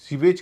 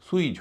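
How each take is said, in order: First: The word begins with a 'see' sound. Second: The word begins with a 'soo' sound. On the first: The speaker calls it wrong. "इसे भी सीवेज कहते हैं हम लोग" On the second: The speaker calls it right. "सुईज होगा"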